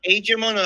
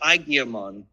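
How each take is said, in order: First: The name is said the English way. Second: The name is said the Japanese way. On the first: This is how people in the West say it. "is it pronounced Agemon" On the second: This is how the Japanese version says it. "They all pronounce it Agiamon"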